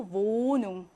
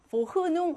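First: "모눈" with a long O and no H; German "모눈", H silent, O drawn out; silent H, long vowel. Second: "보흐눈" with "흐" sounded; H pronounced. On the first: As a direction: stretch the first vowel of "모눈". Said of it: "모음을 길게 만들어줍니다". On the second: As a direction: say "보흐눈" with an audible H in the middle. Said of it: "하지 않고". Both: Shown as a demonstration.

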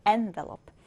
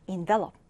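First: "envelope" said as EN-velope, first syllable punched; stress on the first syllable. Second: "envelope" said as en-VE-lope, first syllable weak like "in"; stress on the second syllable. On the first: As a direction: hit the EN of "envelope" like a noun. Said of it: "envelope 같은 경우는 앞에 N 음절을 강하게". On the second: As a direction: put the weight on the second syllable of "envelope" like a verb. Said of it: "두 번째 음절의 강세가 왔을 때는". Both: Shown as a demonstration.

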